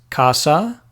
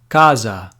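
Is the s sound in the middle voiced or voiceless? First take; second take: voiceless; voiced. First: The middle s is a voiceless hiss. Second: The middle s is a buzzing z sound. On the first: "like in Spanish" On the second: "similar to how they do it in Portuguese"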